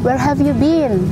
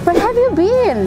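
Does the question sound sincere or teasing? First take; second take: sincere; teasing. First: It sounds like a sincere, serious question. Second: It sounds like playful, joking teasing. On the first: The speaker really wants to know where the person was. "itu serius betulan itu bertanya" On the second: The speaker jokes that the person missed something everyone knows. "itu bercandaan seperti itu juga ada dalam bahasa Inggris"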